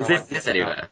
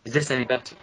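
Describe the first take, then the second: First: Robotic voice. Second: Glitchy digitized mic voice; robot-like distorted sound; robotic voice. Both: Real, not acted. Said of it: "you're still kinda robotic-y".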